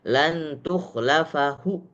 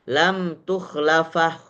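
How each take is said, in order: First: A faint final vowel is heard at the end. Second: The final vowel is silent after the consonant. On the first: "Kalau raum menjadi" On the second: "Kalau diismamkan maka menjadi"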